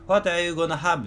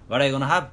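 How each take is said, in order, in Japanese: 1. すべての単語を、はっきり一つずつ言っています。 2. 単語を省略して、つなげて言っています。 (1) "っては発音しない" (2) "省略の美学みたいな"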